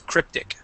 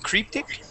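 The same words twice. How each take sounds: First: The first vowel is a short 'i' sound. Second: The first vowel is a long 'ee' sound. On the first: The speaker calls it right. "this is going to be a short I sound" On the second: The speaker calls it wrong. "used a, uh, a an Italian uh, e sound, saying cryptic"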